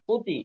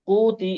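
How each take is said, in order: First: The vowel is short and not lengthened. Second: The vowel is drawn out and lengthened. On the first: The speaker calls it right. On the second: The speaker calls it wrong.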